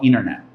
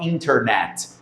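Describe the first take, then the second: First: It is said with an American English accent. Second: It is said with a Brazilian Portuguese accent. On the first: The speaker calls it right. "o americano fala internet" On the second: The speaker calls it wrong. "o americano não fala internet"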